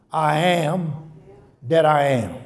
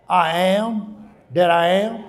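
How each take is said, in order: First: Said in the usual way. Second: Slow, each word weighed; slow emphatic quote. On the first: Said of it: "that means". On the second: Shown as a demonstration. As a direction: lay out "I am that I am" slowly. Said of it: "means victory".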